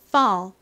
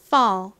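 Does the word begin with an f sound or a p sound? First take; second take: f sound; f sound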